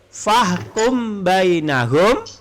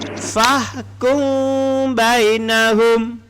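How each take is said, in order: First: The m is said plainly with a full closure. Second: The m is hidden with a nasal hum, loosely closed. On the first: It is read without the recitation rule. The speaker calls it wrong. "tanpa tajwid" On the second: It is read with the recitation rule applied. The speaker calls it right. "Bibir tidak ra, rapat"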